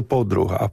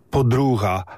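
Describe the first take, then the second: First: Подруга with the stress on the first syllable; corrected stress. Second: Подруга with the stress wrongly on the second syllable; mistaken stress. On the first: Learner correcting his old mistake, подруга stressed on first syllable. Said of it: "а це подруга, правда?". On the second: Learner showing his old mistake, подруга stressed on second-last syllable. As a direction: say подруга stressed on У, Polish-style. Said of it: "я дуже довго говорив". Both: Shown as a demonstration.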